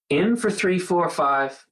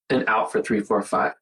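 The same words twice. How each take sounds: First: Paced count, lifting higher on in; counting the in-breath. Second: Paced count, falling lower on out; counting the out-breath. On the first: Showing viewers the breathing count, counting the in-breath higher. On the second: Showing viewers the breathing count, counting the out-breath lower. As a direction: let the count sink as you breathe out. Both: Shown as a demonstration. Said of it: "all it is, is".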